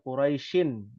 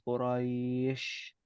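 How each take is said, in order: First: The word ends with an added -in sound. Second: The word stops on the final sh sound. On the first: This is the original full form of the word. "aslinya Quraisyin" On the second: This is the form used when pausing at the verse end. "huruf shin ya yang uh, diwakafkan"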